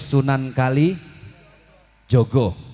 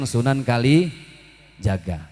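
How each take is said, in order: First: The last word is said with 'o' vowels. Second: The last word is said with 'a' vowels.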